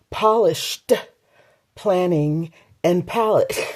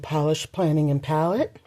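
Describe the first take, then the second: First: The final -ed of polished is clearly pronounced. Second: The final -ed of polished is barely heard. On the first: The speaker calls it right. "I say it like that because ... So I need to enunciate" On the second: The speaker calls it wrong. "I need to say that again"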